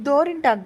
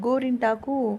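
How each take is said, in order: First: The word begins with a d sound. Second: The word begins with a g sound. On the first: The speaker calls it wrong. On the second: The speaker calls it right.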